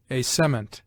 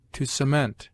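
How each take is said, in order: First: "cement" stressed CE-ment, weight on the first syllable; as a noun, hit the start of "cement". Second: "cement" stressed ce-MENT, weight on the last syllable; as a verb, lean on the end of "cement"; verb stress on the second syllable. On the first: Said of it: "the noun on the former syllable". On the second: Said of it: "the verb has commonly the accent on the latter". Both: Shown as a demonstration.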